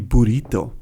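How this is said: It is said with a Spanish accent. The speaker calls it right. "it should be burrito, really"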